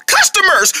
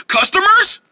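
First: CUSTOMERS called out high, falling at the end; high, thrilled exclamation on "Customers"; excited announcement. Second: CUSTOMERS high, rising into a question; high, incredulous echo ending upward on "Customers"; excited question. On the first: Vendor announcing buyers to partner, excited exclamation. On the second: Vendor echoing the news back, excited question. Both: Acted.

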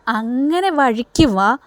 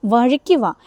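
First: Slow, drawn-out taunt; sarcastic slow come-around; mocking drawl. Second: Said in the usual way. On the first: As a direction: stretch it out to needle her. Chandra taunting Varsha in retold scene.

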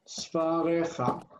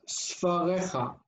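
First: Sfarecha slowly, syllable by syllable, sfaa-re-kha; careful pronunciation. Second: Said in the usual way. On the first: Shown as a demonstration. Teacher modelling "your books" for students, Sfarecha said slowly and clearly. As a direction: draw out Sfarecha with a throaty kh. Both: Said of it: "I would say".

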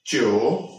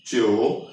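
First: च्यो said low with a rising Chinese tone; Chinese syllable demo. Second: Second take of च्यो, low and rising; Chinese syllable demo. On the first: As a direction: say च्यो low, then lift it at the end. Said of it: "let's suppose हमारा था". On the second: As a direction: repeat च्यो low, lifting the end. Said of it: "इसके ऊपर tone कहां पे आएगी". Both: Shown as a demonstration.

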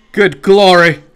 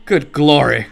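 First: Louder, amazed Good glory!; Good glory! called out loud; loud exclaim. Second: Said in the usual way. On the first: Real, not acted.

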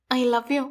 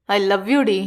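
First: Softly murmured into his ear. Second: Low, emphatic "I love you"; firm confession. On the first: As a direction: confess love gently, much quieter. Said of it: "என்றாள் அவன் காதில் மென்மையான குரலில்". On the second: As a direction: declare love firmly in a lowered hero voice. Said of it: "என்றான் அழுத்தமாக". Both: A narrator's reading.

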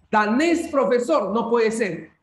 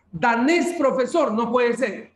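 The two takes are said the same way.

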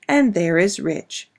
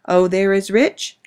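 First: "rich" falling and settled, slow; slow knowing fall on "rich"; stress on rich. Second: "rich" lifted on a slow rising tune; slow teasing lift on "rich"; stress on rich. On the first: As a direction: answer with a falling "and there is rich". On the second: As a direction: draw out "Oh, there is rich" rising on "rich". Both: Acted. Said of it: "Anna's papa would say to her".

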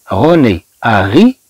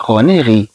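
First: "أغي" with an added "a" before "ri"; past-tense contrast. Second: "غي" as bare "ri", no A before it; present-tense contrast. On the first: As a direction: sound the extra A at the start of "أغي". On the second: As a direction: go straight from the name into "غي". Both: Shown as a demonstration. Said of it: "ما عندناش هاد أ".

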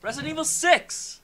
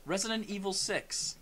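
First: High, loud insistent yell; exasperated shout. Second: Slow, measured repeat; pointed restatement. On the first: Correcting a friend who keeps answering wrong, exasperated shout. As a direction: shout it to finally get through. Repeating, friend not listening. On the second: Restating the game title after bickering, slow and pointed. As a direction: spell it out slowly for someone not listening. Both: Real, not acted.

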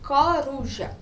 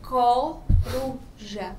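First: Said in the usual way. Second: "coruja" very slowly, split co, ru, ja; syllable by syllable. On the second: Shown as a demonstration. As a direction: break "coruja" into three separated syllables. ("coruja" bem devagar, separando co, ru, ja) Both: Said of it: "quando a gente fala coruja".

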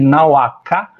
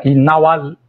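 First: "Inauacá" with no L before the final ká; without lateralisation. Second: "Inaualcá" with a held L before ká; lateralised vowel. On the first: Linguist recalls a hard-to-hear difference, "Inauacá" without L. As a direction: go straight from vowel to k in "Inauacá". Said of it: "a diferença de Inauacá pra Inaualcá". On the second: Linguist recalls a hard-to-hear difference, "Inaualcá" with L. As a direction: linger on the L inside "Inaualcá". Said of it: "tem uma lateralzinha inserida depois da vogal". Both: Shown as a demonstration.

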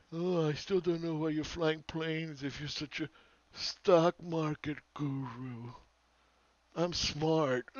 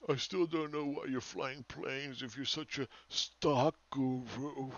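First: Higher, very slow mock of a smug know-it-all; hammed-up doofus. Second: Slow, sneering mimic of a smug commenter; mocking the doofus. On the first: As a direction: stretch every word to make him sound stupid. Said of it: "this doofus". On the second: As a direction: drawl it out like a know-it-all. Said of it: "Then you got this doofus over here".

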